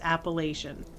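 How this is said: It is pronounced the way northerners say it. "If you are above the Mason-Dixon line"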